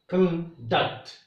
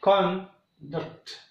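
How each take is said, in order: First: "conduct" as con-DUCT, weak first, strong second; stress on second syllable. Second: "conduct" as CON-duct, very slow, strong first syllable; stress on first syllable. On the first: Teacher shows the verb conduct, stressed on DUCT. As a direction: hold back con, land on DUCT in "conduct". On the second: Teacher shows the noun conduct, stressed on CON. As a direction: draw out CON in "conduct", then a weak duct. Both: Shown as a demonstration. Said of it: "The same way".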